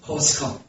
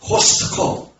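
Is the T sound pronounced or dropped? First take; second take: dropped; pronounced. First: The T sound is dropped. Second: The T sound is clearly pronounced. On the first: The speaker calls it right. "미국에서는 코스코. T자 발음을 안 해" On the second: The speaker calls it wrong. "코스코를 갖다 코스트코"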